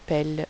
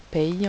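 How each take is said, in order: First: The word ends with an L sound. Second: The word ends with a Y sound. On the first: The speaker calls it right. "on dit pelle" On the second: The speaker calls it wrong. "On ne dit pas paye"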